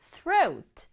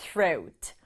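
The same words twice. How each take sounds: First: "throat" with a breathy th, higher; th sound. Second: "throat" said lower in one beat. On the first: Teacher modelling "throat" for students, breathy th. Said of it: "티에이치는 하는 바람 소리". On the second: Teacher repeating "throat" for students in one beat. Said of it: "한 박자예요". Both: Shown as a demonstration.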